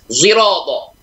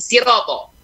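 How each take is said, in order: First: The first sound blends s and z. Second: The first sound is a plain s. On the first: "shot di mixing, di blender dengan zai jadilah zirata" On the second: "mengucapkan dengan bunyi sin"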